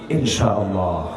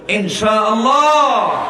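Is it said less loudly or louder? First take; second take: less loudly; louder. First: It is said loudly, but less loudly. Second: It is said even more loudly.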